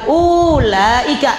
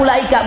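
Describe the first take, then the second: First: The first vowel is drawn out long. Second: The first vowel is short. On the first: The speaker calls it wrong. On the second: The speaker calls it right.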